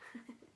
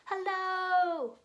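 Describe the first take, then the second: First: It is said very quietly. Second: It is said very loudly.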